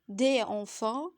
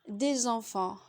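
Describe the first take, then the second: First: No z sound links into the next word. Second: A z sound links into the next word. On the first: The speaker calls it wrong. "Ce serait faux de dire" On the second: The speaker calls it right. "la liaison est obligatoire entre un déterminant et un nom"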